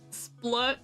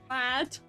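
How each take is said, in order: First: The vowel is a reduced 'uh' as in platoon. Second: The vowel is a full 'a' as in ladder. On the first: "Like the beginning of platoon" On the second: "Like, ladder"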